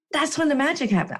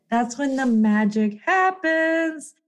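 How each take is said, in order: First: Said in the usual way. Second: Slow, drawn-out, savoring happens; slow magic emphasis. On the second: Shown as a demonstration. Announcing her magic moment, slow and grand. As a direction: let happens land slowly and grandly. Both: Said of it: "I call it the magic".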